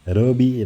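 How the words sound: The name is said with a Spanish accent. The speaker calls it right.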